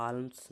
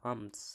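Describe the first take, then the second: First: "আর্মস" with the L sounded, as "alms"; L pronounced. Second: "আর্মস" with the L left silent, as "aams". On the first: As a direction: say "আর্মস" wrongly with an audible L before the M. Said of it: "নয়". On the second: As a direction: say "আর্মস" with no L before the M. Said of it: "এল উচ্চারণ হচ্ছে না". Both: Shown as a demonstration.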